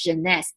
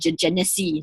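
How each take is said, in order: First: The name is said with two syllables. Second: The name is said with three syllables. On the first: The speaker calls it right. "the way to properly pronounce this is called Janice" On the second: The speaker calls it wrong. "when I first look at this word, I call it Genesee"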